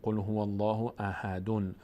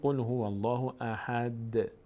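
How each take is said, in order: First: The last word ends with an added 'un' sound. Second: The last word ends with a bare 'd' sound. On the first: The speaker calls it wrong. "نمیشه احدون" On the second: The speaker calls it right. "اما وقتی ایستادیم میگیم قل هو الله احد"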